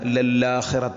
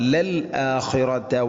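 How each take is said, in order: First: The l runs straight into the following vowel. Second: A glottal catch separates the l from the vowel. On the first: The speaker calls it wrong. "ലല്ലാഖിറത എന്നാണ് അധികം ആളുകളും വായിക്കാറുള്ളത്" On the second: The speaker calls it right. "ഹംസ ഒരിക്കലും നഷ്ടപ്പെടരുത്"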